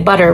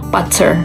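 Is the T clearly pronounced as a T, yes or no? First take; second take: no; yes. First: The middle T is a soft flap. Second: The middle T is a clear T. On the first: The speaker calls it right. "we say butter" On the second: The speaker calls it wrong. "we don't say butter"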